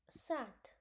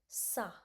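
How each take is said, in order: First: The word ends with a clear T sound. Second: The word ends on the vowel, no T. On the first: The speaker calls it wrong. "then I would be pronouncing T or not?" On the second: The speaker calls it right. "so it will be pronounced like only sa"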